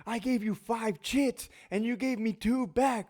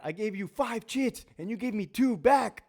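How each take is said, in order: First: High, slow exaggerated whine; central control voice. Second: High put-on snippy officer voice; central control voice. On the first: Control officer complaining about chits, high slow whine. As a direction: drag out the angry control officer. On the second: Control officer snapping at inmates over chits, high whiny voice. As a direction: whine like a fed-up control officer. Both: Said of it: "the voice that they use in the central control window".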